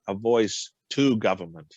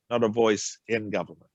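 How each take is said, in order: First: "to" set apart and leaned on; stress on to. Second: "in" set apart and leaned on; stress on in. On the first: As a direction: draw the distinction by punching the word "to". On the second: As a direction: correct them by punching the word "in". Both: Real, not acted. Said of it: "a distinction".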